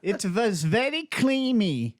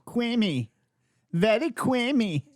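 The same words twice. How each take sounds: First: Fumbled mock German accent; a bad German accent attempt; hammed-up mock German, slow. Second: Creamy said as kwimi, R turned into W; mock German accent with creamy as kwimi. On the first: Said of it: "I messed that voice up". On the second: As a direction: say creamy with a W sound for the R. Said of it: "turn the R into a W".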